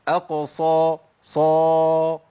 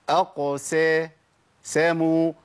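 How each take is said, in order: First: The s after q sounds emphatic, like sad. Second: The s after q is a plain, light s. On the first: The speaker calls it wrong. "تبويزة تجيب معايا صاد" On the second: The speaker calls it right. "كل اللي عملته ابتسامة بسيطة بعد القاف"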